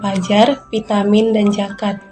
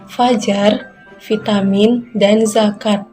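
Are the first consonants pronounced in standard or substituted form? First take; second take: substituted; standard. First: The words use substituted initial consonant sounds. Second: The words use standard initial consonant sounds. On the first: The speaker calls it wrong. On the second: The speaker calls it right. "Contoh kata yang benar"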